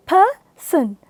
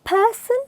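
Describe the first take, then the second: First: PERSON slowly split into per... son; syllable by syllable. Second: Said in the usual way. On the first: Shown as a demonstration. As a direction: pause between the two syllables of PERSON. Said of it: "Two syllables are there in it". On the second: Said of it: "Our previous word".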